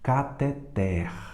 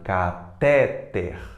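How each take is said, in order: First: The stress is on the last syllable. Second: The stress is on the second-to-last syllable. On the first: The speaker calls it right. "Mais forte é o T, ela é oxítona" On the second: The speaker calls it wrong. "como se ela fosse é, paroxítona"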